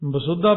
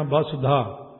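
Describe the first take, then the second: First: ਬਸੁੱਧਾ with a doubled, held dh; wrong pronunciation. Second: ਬਸੁਧਾ with a single, light dh; correct pronunciation. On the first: Preacher shows the congregation the wrong reading ਬਸੁੱਧਾ with a doubled dh. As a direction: stress the wrong geminate in ਬਸੁੱਧਾ. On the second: Preacher gives the congregation the correct reading ਬਸੁਧਾ with a single dh. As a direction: say ਬਸੁਧਾ smoothly, no doubling. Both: Shown as a demonstration. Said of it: "ਬਸੁੱਧਾ ਨਹੀਂ ਕਹਿਣਾ".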